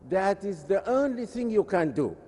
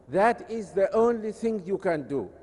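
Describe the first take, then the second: No difference in how they are said.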